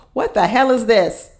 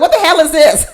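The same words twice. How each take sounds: First: Said in the usual way. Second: Retelling own shocked laugh; laughing disbelief. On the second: Retold or imitated. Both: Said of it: "I was like".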